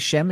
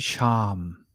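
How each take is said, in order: First: The vowel sounds like 'eh'. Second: The vowel sounds like an open 'ah'. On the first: The speaker calls it wrong. "It shouldn't be Shem" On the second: The speaker calls it right. "it should be Sham"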